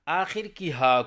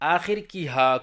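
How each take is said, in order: No difference in how they are said.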